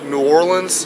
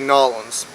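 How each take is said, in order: First: The name is said with every syllable spelled out. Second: The name is squeezed into two short syllables. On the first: This is how outsiders would recognize it. "for anybody who doesn't know" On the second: This is how locals normally say it. "We say Nolans"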